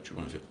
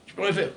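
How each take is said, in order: First: Dropped almost to a murmur, much softer; hushed aside. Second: Said in the usual way. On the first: Acted. Preacher murmurs to himself that nothing can be done, softly. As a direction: let it fall away under your breath. Repeating his point about the wall.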